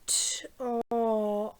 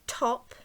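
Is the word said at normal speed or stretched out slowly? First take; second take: stretched; normal. First: The word is stretched out slowly, sound by sound. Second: The word is said quickly as one unit.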